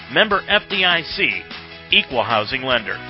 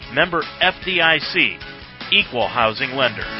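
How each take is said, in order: The two takes are said the same way.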